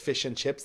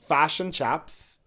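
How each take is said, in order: First: The vowels are said as a plain short i. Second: The vowels sound like a, in a Northern Irish accent.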